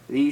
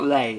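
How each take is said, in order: First: The vowel sounds like the English word 'lee'. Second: The vowel sounds like the English word 'lay'. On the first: The speaker calls it right. "it's probably Lee" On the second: The speaker calls it wrong. "it is probably not Lay"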